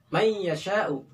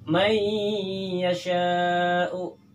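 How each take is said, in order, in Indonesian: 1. Bunyi sengau lewat dengan cepat tanpa ditahan. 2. Bunyi sengau ditahan selama dua ketukan. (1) "Jangan dilangsungkan" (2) "mendengung, ditahan dengungannya itu sebanyak satu alif atau dua harokat"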